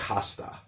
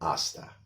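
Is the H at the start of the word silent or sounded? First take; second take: sounded; silent. First: The word begins with an audible H sound. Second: The word begins directly with the vowel sound. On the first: The speaker calls it wrong. "We don't say hasta" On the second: The speaker calls it right. "the H is silent"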